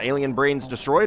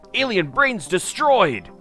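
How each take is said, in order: First: It is said flatly, without extra emphasis. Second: It is said loudly with excited emphasis.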